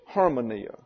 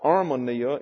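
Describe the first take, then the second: First: The word begins with an audible h sound. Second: The word begins directly with a vowel sound. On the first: The speaker calls it right. "it's harmonia" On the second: The speaker calls it wrong. "So it's not armonia"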